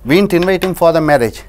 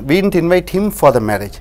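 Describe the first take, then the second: First: The word 'invite' carries the stress. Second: The word 'him' carries the stress. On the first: We only casually called him. "சும்மா கூப்பிட்டோம்" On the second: We invited someone else. "வேறு ஒருவரை அழைத்தோம்"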